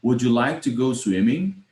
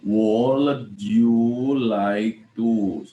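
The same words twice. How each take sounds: First: "Would you" linked as "wu-joo", fluent question rising on "swimming"; correct pronunciation. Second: "Would you like to" dragged out very slowly, word by word; deliberately bad pronunciation. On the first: Teacher repeating it correctly for students, "Would you" neatly linked. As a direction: say "Would you like to go swimming" smoothly, words joined, ending up. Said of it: "bagaimana kalau betul?".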